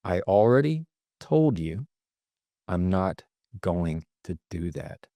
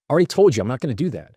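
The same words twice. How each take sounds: First: Slow, deliberate, pausing midway, ending softer; measured, unhurried firmness; fully in control. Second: Very fast, higher, run-together retort; rushed, pitched-up snap; grasping for control. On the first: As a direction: space the words out and settle downward. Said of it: "The other says, "I am fully in control". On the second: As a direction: blurt it out defensively in one rush. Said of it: "one sounds like it's grasping for control". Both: Shown as a demonstration.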